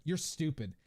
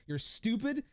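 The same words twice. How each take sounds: First: Said in the usual way. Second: Mock insult. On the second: Streamer teases the chatter, repeating the insult higher in mock scorn. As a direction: throw it as a playful jab.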